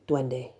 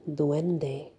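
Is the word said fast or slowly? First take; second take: fast; slowly. First: The word is spoken quickly, syllables run together. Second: The word is spoken slowly, syllable by syllable.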